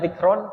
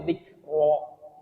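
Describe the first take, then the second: First: The word ends with an n sound. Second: The word ends with a long vowel. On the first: The speaker calls it wrong. "bukan dibaca dzikron" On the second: The speaker calls it right. "tapi dzikro gitu"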